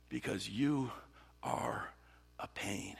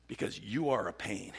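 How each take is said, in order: First: "you... are... a pain" with long pauses, fading; word-by-word exasperation. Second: "Because you are a pain" in one run; voiced, understated acted grievance; exasperated complaint. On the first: Acted. David repeating his complaint in prayer, pointedly spaced out. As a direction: drop to a near whisper by "a pain". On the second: David complaining in prayer about his enemies, exasperated.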